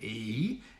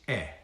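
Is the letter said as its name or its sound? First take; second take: name; sound. First: The letter is said as its alphabet name. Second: The letter is said as its plain sound. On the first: "It's not the name E" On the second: "it's E"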